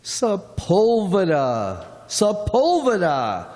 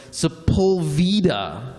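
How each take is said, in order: First: Sepulveda stressed on PUL, drawn out; corrected pronunciation. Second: Sepulveda stressed on the VEE; mispronounced street name. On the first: Driver teaching newcomers the local name, Sepulveda corrected to se-PUL-ve-da. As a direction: say Sepulveda as se-PUL-ve-da, falling at the end. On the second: Passenger reading instructions to the driver, Sepulveda mispronounced as se-pul-VEE-da. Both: Acted.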